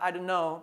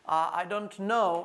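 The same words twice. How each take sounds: First: The t in "don't" is dropped. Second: The t in "don't" is clearly pronounced. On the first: "किसी में टी silent हो जाता है" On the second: "किसी में टी आ रहा"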